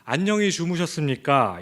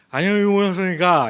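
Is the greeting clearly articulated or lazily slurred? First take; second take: clear; slurred. First: Each syllable is pronounced clearly and distinctly. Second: The syllables are run together lazily and slurred. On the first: The speaker calls it right. "이렇게 또박또박 말하는 게" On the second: The speaker calls it wrong. "귀찮아서"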